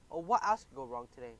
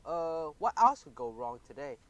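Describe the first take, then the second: First: Whining complaint; whiny. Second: Slow, worried and loud; shaken despair. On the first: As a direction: whine it out miserably. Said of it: "I whined". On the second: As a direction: dread what comes next. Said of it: "I was still shaking". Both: Acted.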